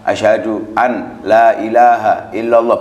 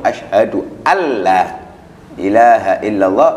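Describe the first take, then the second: First: The n sound is pronounced before the l. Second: The n sound merges into the following l. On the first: "Adapun kalau bukan sholat ... boleh" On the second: "Tapi kalau di sholat harus langsung"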